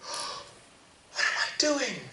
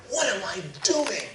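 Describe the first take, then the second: First: High, slow, gasping cry of despair; gasp, then drag the question out in anguish; a starving boy breaking down. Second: Said in the usual way. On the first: Acted. Boy repeats his question in despair.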